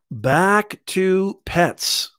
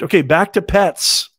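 First: Very slow, drawn-out echo of the line; slow repeat. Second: Loud, snappy topic switch; brisk announcement. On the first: Host repeating to viewers, slow and drawn out. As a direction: stretch each word like a sing-song refrain. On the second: Host to viewers, a loud snappy switch back to pets. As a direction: call the next section out to the viewers. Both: Real, not acted.

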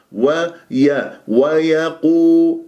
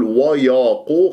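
First: Tajweed model; correct light yaa. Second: وياقو with the ي made heavy next to the ق; wrong heavy yaa. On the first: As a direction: recite ويقولون slowly, light ي. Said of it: "ويا مرقق". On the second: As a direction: thicken the ي in ويقولون. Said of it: "خطأ". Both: Shown as a demonstration.

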